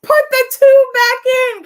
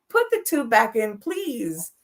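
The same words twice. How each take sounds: First: Much higher, loud mock yell; daughter's exasperated comic cry at her cursing mother; exasperated outburst. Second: Said in the usual way. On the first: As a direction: blurt it out, fed up and half laughing. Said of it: "I was like". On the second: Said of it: "and I'm like".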